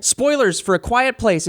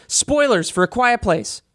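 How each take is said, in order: First: Slow, booming announcer. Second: Slow, booming announcer warning. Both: Pretend. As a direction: announce it like a movie trailer. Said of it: "You have a good announcer voice".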